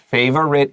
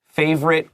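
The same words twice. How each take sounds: First: The word is said with three syllables. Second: The word is said with two syllables. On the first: "but favorite is fine" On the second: "I say favorite with two syllables"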